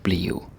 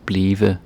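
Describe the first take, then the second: First: "bliv" as one syllable, ending like a U or W; short form bliv. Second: "blive" with two syllables, final e sounded; full form blive. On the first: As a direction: clip "bliv" into a single syllable. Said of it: "other times it's, like". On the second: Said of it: "sometimes I say, like". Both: Shown as a demonstration.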